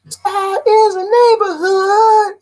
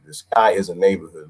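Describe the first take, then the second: First: High, loud, slow singing; sung, belt it out high, stretching each word; drawn-out high sung holler. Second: Said in the usual way. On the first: Acted. Sings out the same phrase.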